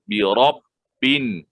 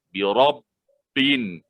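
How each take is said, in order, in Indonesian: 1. Huruf b ganda itu ditekan. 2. Huruf b ganda itu ditekan.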